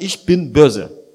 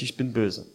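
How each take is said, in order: First: Slow and loud, every word hammered; loud declaration. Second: Low and soft, settled; quiet resolve. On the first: Preacher voicing a person who chooses sin, slow loud declaration. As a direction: declare it defiantly, as if proud. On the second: Preacher voicing a person deciding for sin, quiet and settled. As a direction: say it quietly, as a calm decision. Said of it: "entscheidet sich". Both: Retold or imitated.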